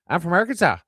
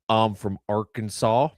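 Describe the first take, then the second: First: It is said faster and in a higher voice. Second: It is said at normal speed and pitch.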